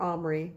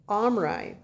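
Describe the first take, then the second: First: "Omri" ending in an EE sound. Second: "Omri" ending in an EYE sound; Omri rhyming with eye. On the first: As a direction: say "Omri" as OM-uh-ree. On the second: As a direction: say "Omri" as OM-rye, two syllables. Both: Shown as a demonstration. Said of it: "how that should be pronounced".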